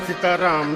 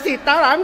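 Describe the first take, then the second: First: It is said grudgingly, without any will. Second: It is said with anger.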